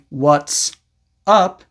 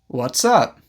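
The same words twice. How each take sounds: First: The two words are said separately. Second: The two words are linked together. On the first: "Instead of saying" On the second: "you can also use this to connect the words"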